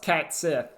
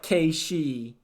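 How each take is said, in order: First: The name sounds like 'cat sith'. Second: The name sounds like 'kah shee'. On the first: The speaker calls it right. "Like no, it's Cat Sith" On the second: The speaker calls it wrong. "get that correct pronunciation out of here. It's like K she"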